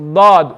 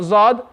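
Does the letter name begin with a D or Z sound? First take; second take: D; Z. First: The letter name begins with a d sound. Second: The letter name begins with a z sound. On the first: The speaker calls it right. "It's dad" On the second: The speaker calls it wrong. "It's not zad"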